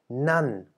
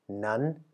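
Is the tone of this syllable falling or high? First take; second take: falling; high. First: The syllable is said with a falling tone. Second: The syllable is said with a high tone. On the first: "nämlich fallend" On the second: "und hoch"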